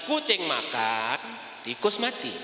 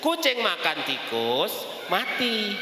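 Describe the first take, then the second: First: There is a pause after the word makan. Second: There is a pause after the word tikus. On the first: The cat is eating, and elsewhere a mouse is dead. "Kucingnya lagi makan, di tempat lain ada tikus dalam keadaan sedang mati" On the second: The cat eats the mouse and the cat dies. "Kucingnya yang mati"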